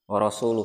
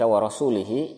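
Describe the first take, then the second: First: The word ends with an 'u' vowel sound. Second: The word ends with an 'i' vowel sound. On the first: The Messenger also disowns the polytheists. The speaker calls it right. "bacaan yang betul" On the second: God disowns the Messenger as well. The speaker calls it wrong. "bacaan yang salah"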